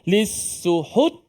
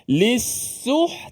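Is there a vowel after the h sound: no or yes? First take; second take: yes; no. First: The h sound is followed by a vowel. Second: The h sound has no vowel after it. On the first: The speaker calls it wrong. "kalau ha tu berbaris senang" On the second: The speaker calls it right. "ha mati"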